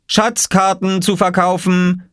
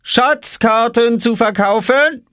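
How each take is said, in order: First: High, slow street-seller call; calling out for sale. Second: Very high, drawn-out vendor cry; calling out for sale. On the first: Boy hawks treasure maps in the garden, high drawn-out call. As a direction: sing out your wares like a young vendor. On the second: Boy hawks maps at his robbed sister, high drawn-out call. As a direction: stretch out the sales call, provocatively. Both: A narrator's reading. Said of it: "rief Oskar".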